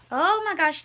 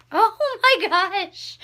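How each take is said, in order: First: Said in the usual way. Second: "Oh my gosh" stretched slow, higher and louder on "my"; awed gasp. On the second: Real, not acted. Finding an old letter, awed and drawn-out. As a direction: let the wonder pull the words out long.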